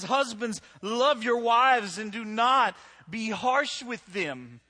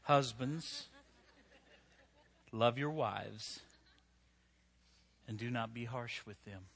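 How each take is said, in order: First: Scripture proclaimed. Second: Scripture reading. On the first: Scripture quoted loudly to crowd. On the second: Scripture read slowly and softly. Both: Acted.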